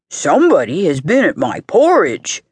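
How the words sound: It is said in a deep, gruff voice.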